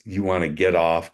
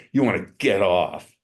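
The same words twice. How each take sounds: First: Said in the usual way. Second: "get off" leaned on with deliberate stress; leaning on GET OFF. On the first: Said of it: "I'm not leaning on it". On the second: Shown as a demonstration. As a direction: press on the words "get off". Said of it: "leaning on it. I'm saying".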